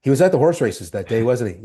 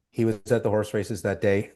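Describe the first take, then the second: First: Recovered line. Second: Said in the usual way. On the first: Retold or imitated. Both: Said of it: "I go".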